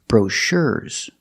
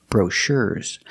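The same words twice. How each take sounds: Both takes have the same delivery.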